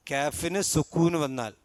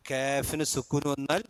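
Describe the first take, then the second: No difference in how they are said.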